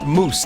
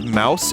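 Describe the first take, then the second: First: The vowel sounds like the one in 'goose'. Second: The vowel sounds like the one in 'house'. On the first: The speaker calls it right. "It's pronounced moose" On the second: The speaker calls it wrong. "You don't pronounce it as mouse"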